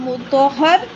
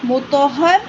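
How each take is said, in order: Both takes have the same delivery.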